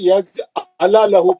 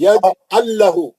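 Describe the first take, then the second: First: The middle is split as 'ala lahu'. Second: The middle is joined as 'allahu'. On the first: The speaker calls it wrong. "आप क्या पढ़े, यज अला लहू पढ़े आप" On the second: The speaker calls it right. "अला लहू नहीं"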